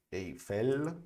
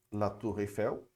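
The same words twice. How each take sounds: First: Eiffel with a clear final French l, efel. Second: La Tour Eiffel with Eiffel ending in a Portuguese w sound, efew; Portuguese-style Eiffel. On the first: Teacher correcting Eiffel for students, with a clear final l. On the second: Teacher showing students the Portuguese-style Eiffel, ending in w. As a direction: say Eiffel the Brazilian way, final l as w. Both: Shown as a demonstration. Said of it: "como português aqui".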